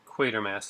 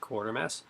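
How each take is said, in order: First: The first syllable has no R sound. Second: The first syllable has an R sound. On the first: The speaker calls it right. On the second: The speaker calls it wrong.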